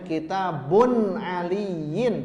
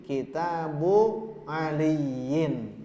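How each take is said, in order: First: The first word ends with an n sound. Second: The first word ends in a plain vowel. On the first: The speaker calls it wrong. "Tidak boleh" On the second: The speaker calls it right. "tapi kitabu"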